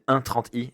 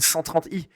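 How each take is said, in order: First: The number is read as one, thirty. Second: The number is read as one hundred thirty. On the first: The speaker calls it right. "vous êtes un connoisseur" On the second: The speaker calls it wrong. "au lieu de dire"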